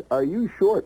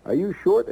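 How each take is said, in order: First: "short" dropping at the end like a firm pitch; falling sales-ad question. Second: "short" rising at the end as a coaxing question; rising sales-ad question; ad pitch, rising. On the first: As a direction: read "Are you short?" with a falling close on "short". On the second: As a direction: read "Are you short?" with a lifting close on "short". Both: Retold or imitated. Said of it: "it says".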